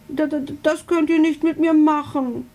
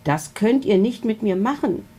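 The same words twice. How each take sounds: First: High, stammering little dragon; much higher, stammered protest; stuttering. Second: Said in the usual way. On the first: A narrator's reading. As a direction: stumble over the first word in dismay. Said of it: "stottert er".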